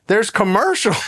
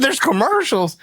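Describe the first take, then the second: First: Said in the usual way. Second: Commercials? pitched high in disbelief; a stunned there's commercials?; incredulous question. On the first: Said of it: "He goes". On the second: Retold or imitated. Son hears of the ad, asks high and stunned. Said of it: "I said".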